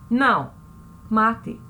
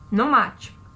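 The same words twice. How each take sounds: First: There is a pause after não. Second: It is said without a pause after não.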